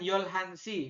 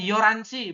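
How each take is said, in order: First: The middle h sound is clearly pronounced. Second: The middle h sound is dropped. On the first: The speaker calls it wrong. "Bukan Yolhanshi" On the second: The speaker calls it right. "audio mengatakannya adalah Yoranshi"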